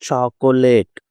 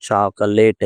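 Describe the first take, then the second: First: "చాకోలేట్" with a clear middle "ko"; full O vowel. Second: "చాకలేట్" with middle "ka" instead of "ko"; weakened O. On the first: Teacher shows how we say it, "చాకోలేట్" with full O. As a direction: sound the O fully in "చాకోలేట్". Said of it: "ఇలా మనం పలుకుతాం". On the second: Teacher shows how natives say it, "చాకలేట్" without O. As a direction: reduce the middle vowel, "chaa-ka-late". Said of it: "ఓ ఎగరేస్తారు". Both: Shown as a demonstration.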